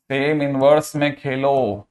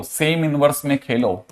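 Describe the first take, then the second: First: Slow, stretched-out words; slow emphatic repetition. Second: Said in the usual way. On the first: Shown as a demonstration. Teacher drilling a key rule into students, slow emphatic repetition. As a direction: repeat the rule slowly so it sinks in.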